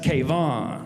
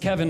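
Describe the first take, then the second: First: The name is said the Persian way. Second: The name is said the plain American way. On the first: "sometimes I crank it up, even more ethnic" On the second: "if I don't have time, I'm like, it's [name]"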